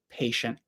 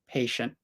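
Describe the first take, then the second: First: The T sound is made softly and weakly. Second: The same.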